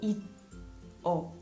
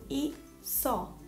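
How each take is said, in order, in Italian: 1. La seconda sillaba non ha il suono s. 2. Il suono s inizia la seconda sillaba. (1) "non leggo i-o" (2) "ma leggo i-so"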